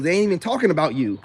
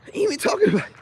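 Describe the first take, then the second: First: Said in the usual way. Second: Much higher, mocking falsetto; squeaky mock echo of his own words; mocking high repeat. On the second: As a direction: toss the line back up high, teasing.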